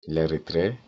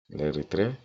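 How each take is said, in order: Both takes have the same delivery.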